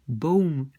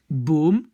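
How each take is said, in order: First: The o glides into a following sound. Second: The o is a single pure sound. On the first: "aux Pays-Bas, il y a comme quelque chose qui suit ce son" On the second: "En Flandre, on va plutôt dire boom"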